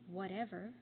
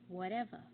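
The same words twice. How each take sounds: First: The final R sound is pronounced. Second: The final R sound is dropped.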